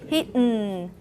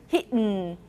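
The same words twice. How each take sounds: Both takes have the same delivery.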